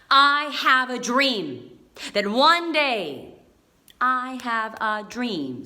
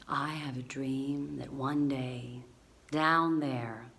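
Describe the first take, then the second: First: Slow, loud staccato with raised pitch; emphatic, chopped-up oratory. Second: Slow, hushed, low flowing delivery; low, unhurried, smooth oratory; slow and fluid. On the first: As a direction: punch out each word separately, loud and slow. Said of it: "So I did it quite staccato". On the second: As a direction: let the words glide out slowly and softly. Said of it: "let's make it more fluid after, maybe more slow". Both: Shown as a demonstration.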